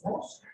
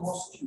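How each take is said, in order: First: "mosque" as one syllable ending in k; correct mosque. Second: "Mosque" said as "mos-kyu"; mispronounced mosque. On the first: Teacher correcting the students' word, correct mosque. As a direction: close "mosque" straight on the k. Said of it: "It's mosque". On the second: Teacher showing what it is not, mispronounced mosque. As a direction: add a "kyu" ending to "Mosque". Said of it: "It's not Mosque". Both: Shown as a demonstration.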